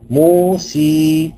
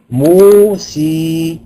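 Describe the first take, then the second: First: The final vowel is a pure ee sound. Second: The final vowel is a pure ee sound.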